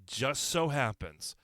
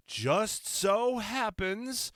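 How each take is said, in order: First: Said in the usual way. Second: Drawn-out, high, slow knowing tone; slow sly wink of a line; knowing sarcasm. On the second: Real, not acted. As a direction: let the irony hang on every word.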